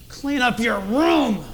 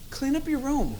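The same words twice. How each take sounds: First: The tone is harsh and threatening. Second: The tone is mild and not threatening. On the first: It is a menacing command. "You hear the tone?" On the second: It is a calm request. "That doesn't sound very threatening"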